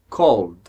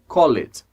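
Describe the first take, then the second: First: The L runs straight into a final D. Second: A vowel is sounded between L and D. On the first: The speaker calls it right. "a gente liga o L ao D" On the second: The speaker calls it wrong. "Não pode ser called. Não existe"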